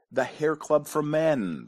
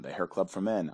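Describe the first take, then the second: First: Higher, slow, drawn-out reveal; grand proclamation. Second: Said in the usual way. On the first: Pretend. Host revealing the company he founded, grand proclamation. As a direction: proclaim the name like a slogan. Answer proclaimed, then repeated plainly.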